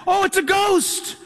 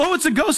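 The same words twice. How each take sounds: First: Higher and slow, a touch of dread; mock fear of dying. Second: Lightly amused, brushing off the ghost idea; mock chuckling dismissal. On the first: Preacher voicing the frightened disciples in the boat, mild dread. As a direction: say it as if death is coming. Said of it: "their Hebrew mindset and the tradition of the day was". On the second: Preacher mimicking a modern churchgoer's amused shrug. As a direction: scoff at it as modern listeners would. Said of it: "you and I kind of laugh and chuckle".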